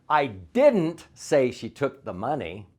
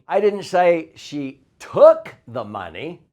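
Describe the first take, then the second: First: The word didn't is stressed. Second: The word she is stressed.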